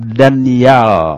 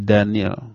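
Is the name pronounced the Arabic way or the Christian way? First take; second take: Arabic; Christian. First: The name is pronounced the Arabic way. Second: The name is pronounced the Christian way. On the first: This is the Arabic form of the name. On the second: This is the form the name took among Christians. "menurut lisan orang-orang Nasrani menjadi Daniel"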